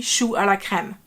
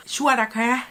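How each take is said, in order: First: "chou à la crème" on one even tone, crème's ending fully heard; correct French. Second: "chou à la crème" with the crème ending cut short; Thai-style mispronunciation. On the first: Shown as a demonstration. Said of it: "It needs to be". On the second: Retold or imitated. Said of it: "Here he says chou".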